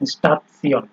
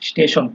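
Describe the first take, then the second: First: The middle is said with a 'ts' sound. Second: The middle is said with an 'sh' sound. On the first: This is how the word is pronounced here. "কিন্তু উচ্চারণটা হচ্ছে স্টাফসিয়ন" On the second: This is the English reading of the word. "ইংলিশে যখন আমরা পড়তাম"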